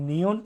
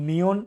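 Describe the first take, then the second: The two takes are said the same way.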